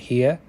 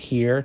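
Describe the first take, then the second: First: The final R is dropped. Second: The final R is pronounced.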